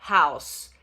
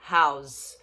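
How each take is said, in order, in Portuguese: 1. A palavra termina com som de S. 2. A palavra termina com som de Z. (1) "Som de S no final, não é som de Z" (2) "como verbo vira house"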